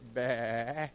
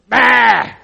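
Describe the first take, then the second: First: It is a soft, small bleat. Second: It is a loud, bawling bleat.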